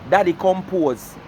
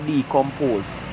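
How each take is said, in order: First: The first part sounds like daddy. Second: The first part sounds like dee. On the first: The speaker calls it wrong. "you can't go to Google and tell them say daddy compose" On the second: The speaker calls it right. "the meaning for decompose"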